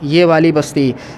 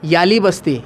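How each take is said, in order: First: Each of the first two words is said separately. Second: The first two words merge into one short word. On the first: The speaker calls it right. "असल में होता है" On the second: The speaker calls it wrong. "Urdu बिगाड़ के बोलते हैं"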